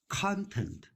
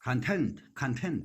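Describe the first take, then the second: First: "content" with the weight on CON; stress on first syllable. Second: "content" as con-TENT, repeated for practice; stress on second syllable. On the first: Real, not acted. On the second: Shown as a demonstration. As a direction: put the weight on TENT in "content". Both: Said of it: "emphasis on the second syllable".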